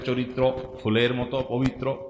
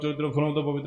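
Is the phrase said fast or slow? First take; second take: slow; fast. First: It is said slowly and calmly. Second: It is said in a fast, hurried rush. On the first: The listener is pleased by the praise. The speaker calls it right. "আপনি আস্তে ধীরে বললে" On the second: The speaker sounds as if they have lost their mind. The speaker calls it wrong. "এত হুলস্থুল করলে"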